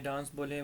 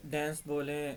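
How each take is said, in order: First: डांस said as "dans" with a broad a; डांस the British way, "daans"; British dance. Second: डांस said as "dɛns" with a flat a; डांस the American way, "dɛns"; American dance. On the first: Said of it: "British में जो है ना वो डांस". (डांस British उच्चारण "डान्स") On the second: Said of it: "American accent में उसको डांस". (डांस अमेरिकी उच्चारण "डैन्स") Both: Shown as a demonstration.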